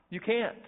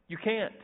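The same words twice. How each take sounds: Both takes have the same delivery.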